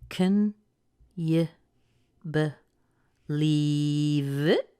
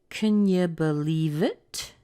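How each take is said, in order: First: The sentence is spoken very slowly. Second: The sentence is spoken a little faster. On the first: "Very slow" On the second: "A little faster"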